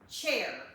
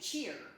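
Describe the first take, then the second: First: The vowel sounds like the one in 'chair'. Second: The vowel sounds like the one in 'cheer'. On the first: The speaker calls it right. "I can hardly even say it correctly" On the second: The speaker calls it wrong. "I say cheer"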